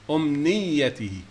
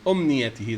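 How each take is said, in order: First: The middle y sound is doubled and stressed. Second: The middle y sound is short and single. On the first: It does not refer to a wish. The speaker calls it right. "with the shadda on the ya. We stress ya in the middle" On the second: It refers to a wish. The speaker calls it wrong. "this one with the with the yellow arrow"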